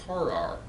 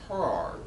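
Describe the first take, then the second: Both takes have the same delivery.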